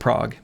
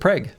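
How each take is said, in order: First: It is said like the European city's name. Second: It is said with the local Minnesota pronunciation. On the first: This is how the city in Europe is called. The speaker calls it wrong. "you do not pronounce it Prague" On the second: This is how the town in Minnesota is called. The speaker calls it right. "You pronounce it Prague"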